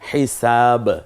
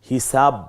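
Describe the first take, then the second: First: The final b bursts out with a bounce. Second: The final b is held without a bounce. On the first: The speaker calls it right. "এই যে বেরিয়ে পড়লো হিসাব, দুইটা ঠোঁট যেন হরফটাকে বের করে দিচ্ছে" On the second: The speaker calls it wrong. "এভাবে না"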